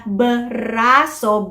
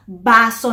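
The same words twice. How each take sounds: First: "braso" slowly, b and r both sounded; buh-RA-so, cluster drawn out; full cluster. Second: "baso" with the r left out; child's "baso", just b before the vowel; simplify br to b in "baso"; cluster reduced. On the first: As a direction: stretch the br of "braso". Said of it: "B R is the cluster". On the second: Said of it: "magiging baso na lang". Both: Shown as a demonstration.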